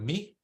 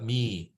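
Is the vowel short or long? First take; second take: short; long. First: The vowel is short. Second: The vowel is long. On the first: The speaker calls it wrong. "It's not me" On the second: The speaker calls it right. "It's a long I. It's like E E"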